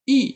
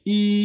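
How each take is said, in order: First: The tone falls sharply from high to low. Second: The tone stays high and level. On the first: "dibaca dengan nada keempat" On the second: "nada aslinya itu adalah nada pertama"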